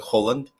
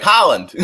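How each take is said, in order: First: Holland with a long, rounded OH; first vowel of Holland like "hole"; Norwegian pronunciation. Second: Holland with an open AH, punched out; mock-confident Holland with a broad American AH; imitated wrong pronunciation. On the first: Shown as a demonstration. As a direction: say Holland as HOH-lund. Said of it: "in Norwegian, it's supposed to be". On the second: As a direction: say Holland as HAH-lund, higher and louder. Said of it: "but he's like".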